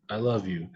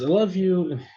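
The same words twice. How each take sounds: First: It is said in a tired man's voice. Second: It is said in an eager child's voice.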